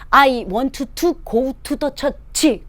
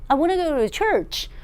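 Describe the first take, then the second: First: Each word is said clearly and separately. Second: The words are run together with linking. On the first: Every listener can understand it. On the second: Listeners catch only a few words.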